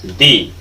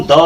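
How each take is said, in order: First: दी said alone as low "dee". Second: द said alone as "duh". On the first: Teacher gives second reading of T-H-E, दी as "dee". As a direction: drop the pitch on दी, with an ee vowel. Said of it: "पढ़ते हैं". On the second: Teacher reading T-H-E for learners, द as "duh". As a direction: say द with a schwa, set apart by a pause. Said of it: "इसको हम द". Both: Shown as a demonstration.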